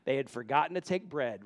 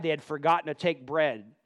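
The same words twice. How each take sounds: First: A quieter, lower retake with "take" stressed; "take" gently stressed, said lower after a laugh; softer amused repeat. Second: "forgotten" leaned on, voice falling after; "forgotten" stressed, the rest falls away. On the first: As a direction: repeat it to yourself, softly amused. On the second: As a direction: press "forgotten" to show the irony. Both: Shown as a demonstration.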